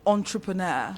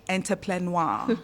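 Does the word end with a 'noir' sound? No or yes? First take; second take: no; yes. First: The ending has no 'noir' sound. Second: The ending sounds like 'noir'. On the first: The speaker calls it right. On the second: The speaker calls it wrong.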